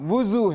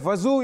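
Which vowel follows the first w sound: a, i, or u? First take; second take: u; a. First: The first vowel is a u sound. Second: The first vowel is an a sound. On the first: The speaker calls it right. "نہ زبر ہے نہ زیر ہے، پیش ہے" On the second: The speaker calls it wrong. "واو کے اوپر زبر کہا"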